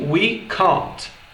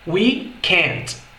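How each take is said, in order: First: It is said with a British accent. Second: It is said with an American accent.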